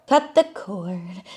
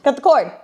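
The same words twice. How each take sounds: First: Slow, stretched-out repeat; drawn out. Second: Punchy, higher-pitched command; sharp order. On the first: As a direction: linger on each word of the phrase. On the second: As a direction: say it firmly in one quick burst. First take, spoken as an order. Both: Acted.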